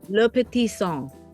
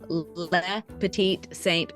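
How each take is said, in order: First: It is said with a French pronunciation. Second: It is said with an American pronunciation. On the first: Americans could not spell it from hearing. "how would you say it in French?" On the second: It is easy for Americans to spell. "I just I say it the American"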